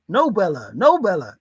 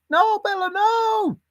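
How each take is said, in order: First: Said in the usual way. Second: Very high No, Bella, no; mock high-pitched telling-off; high scolding sing-song. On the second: Shown as a demonstration. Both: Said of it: "Is that what you say?".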